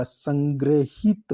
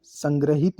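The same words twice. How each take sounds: First: संग्रहित drawn out as "sang-gre-hit"; correct pronunciation. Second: संग्रहित said quickly run together as "sangrahit"; wrong pronunciation. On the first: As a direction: stretch संग्रहित syllable by syllable. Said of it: "संग्रहित होता है ये". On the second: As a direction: say संग्रहित without separating syllables. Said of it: "संग्रहित नहीं". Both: Shown as a demonstration.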